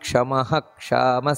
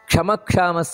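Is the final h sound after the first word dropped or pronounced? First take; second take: pronounced; dropped. First: A full h sound ends the first word. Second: The two words run together without the h sound. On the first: The speaker calls it right. "ಹಿಂದೆ ಕ್ಷಕಾರ ಇದ್ದಾಗ ಮುಂದಿನ ವಿಸರ್ಗವನ್ನು ಪೂರ್ಣವಾಗಿ ಉಚ್ಚಾರಣೆಯನ್ನು ಮಾಡಬೇಕು" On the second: The speaker calls it wrong. "ಅಂತಲ್ಲ"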